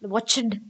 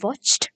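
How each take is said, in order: First: The ending is a separate 'du' syllable. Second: The ending is a short 't' sound. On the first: The speaker calls it wrong. "நாங்கள் ஐ வாட்ச்டு cricket வாட்ச்டு cricket என்று சொல்ல மாட்டோம்" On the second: The speaker calls it right. "ஜம்ப்ட் அந்த மாதிரி என்ற sound தான் அழகா வரணும்"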